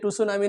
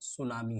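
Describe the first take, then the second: First: The word begins with a t sound. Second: The word begins with an s sound. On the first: The speaker calls it wrong. "टुसुनामी नहीं है" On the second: The speaker calls it right. "आपका सुनामी है"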